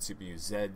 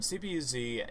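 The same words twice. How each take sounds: First: The final letter is said the British way. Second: The final letter is said the American way.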